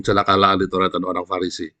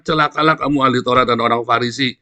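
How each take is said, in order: First: Said in the usual way. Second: Jesus's woe. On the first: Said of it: "sama Yesus ngomong". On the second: Retold or imitated. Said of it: "kalau bahasanya Yesus".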